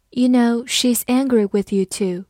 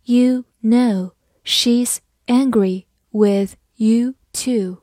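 First: Said in the usual way. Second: Slow, deliberate, word by word; teacher modelling a sentence slowly; slow reading. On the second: Shown as a demonstration. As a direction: leave a gap after every word. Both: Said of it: "我们再慢慢来读一遍".

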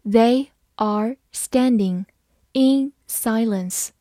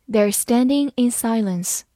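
First: Very slow, words spaced apart; slow read. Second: Said in the usual way. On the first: Shown as a demonstration. Teacher modelling the sentence for students, slow and clear. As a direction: read it slowly for the learners. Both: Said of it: "好，慢慢来读".

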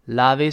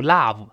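First: "love" as "lah-vu", with an added vowel; wrong final V. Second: "love" ending in a buzzed v, no extra vowel; lip-teeth final V. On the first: Teacher showing the mistake, adding a vowel. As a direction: tack a "u" onto the end of "love". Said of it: "不要读". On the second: Teacher modelling the final V, cleanly. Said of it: "最后那个V是上牙触下唇". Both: Shown as a demonstration.

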